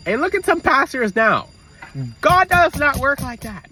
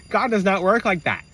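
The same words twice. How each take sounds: First: High, loud, slow preaching; fervent sermon voice. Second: Said in the usual way. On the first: Real, not acted. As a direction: proclaim it to the congregation. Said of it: "preaching about pastors". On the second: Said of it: "repeats with a laugh".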